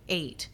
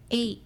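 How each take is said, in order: First: It is said in her normal voice. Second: It is said in a tiny, quiet voice.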